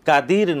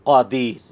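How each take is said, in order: First: The first consonant is a thin, light k sound. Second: The first consonant is a thick, deep qaf sound. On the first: The speaker calls it wrong. "না" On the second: The speaker calls it right. "মোটা হয়ে স্পষ্ট হবে"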